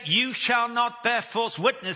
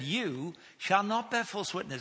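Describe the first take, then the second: First: It is said as a stern command. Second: It is said as a reassuring promise.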